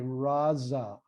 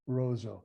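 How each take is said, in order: First: The vowels are pronounced as open ah sounds. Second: The vowels are pronounced as rounded oh sounds. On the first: It is the East Syriac pronunciation. "the East Syriacs would say Raza" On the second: It is the West Syriac pronunciation. "the West Syriacs ... would say Rozo"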